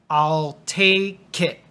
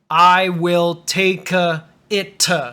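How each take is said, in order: First: The words run together, in three quick beats. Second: Each word is said separately, in six beats. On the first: The speaker calls it right. "It should only be three. So the K goes on to the it" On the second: The speaker calls it wrong. "some beginner students might say I will take it and turn it into one, two, three, four, five, six sounds"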